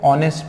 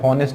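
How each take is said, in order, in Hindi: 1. शब्द स्वर से शुरू होता है, इसमें h नहीं है। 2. शब्द h की आवाज़ से शुरू होता है। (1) "तो ऑनेस्ट पढ़ते हैं उसको" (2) "हॉनेस्ट नहीं पढ़ते"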